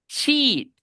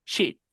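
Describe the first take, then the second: First: High, stretched ee in SHEET; long i. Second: SHEET with a quick lax ih, as shit; short i. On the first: Teacher showing the word for hoja, long i. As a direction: hold SHEET long and tense. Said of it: "una es una I larga". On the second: Teacher showing the bad word below, short i. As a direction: clip the vowel in SHEET short and loose. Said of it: "la otra es una I corta". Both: Shown as a demonstration.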